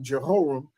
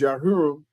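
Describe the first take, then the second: First: The name begins with a J sound. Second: The name begins with a Y sound. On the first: "or you call him King Jehoram" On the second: "the correct pronunciation is Yahuram"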